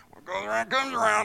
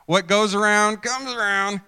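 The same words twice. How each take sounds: First: High, quick aside in a put-on voice; hurried, high-pitched gossipy mutter; behind-the-back gloating. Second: Raised, louder knowing sing-out; loud told-you-so up in pitch; smug saying. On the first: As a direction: gloat about them behind their back. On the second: Acted. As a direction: declare it openly, high and loud. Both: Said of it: "we usually say that behind somebody's back".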